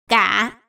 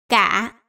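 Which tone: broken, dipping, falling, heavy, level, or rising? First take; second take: heavy; heavy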